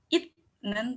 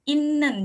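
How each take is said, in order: First: The middle consonant is a 't' sound. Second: The middle consonant is a doubled 'n' sound. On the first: The speaker calls it wrong. "atau itnen" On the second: The speaker calls it right. "n-nya ada dua gitu"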